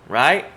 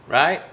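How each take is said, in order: The two takes are said the same way.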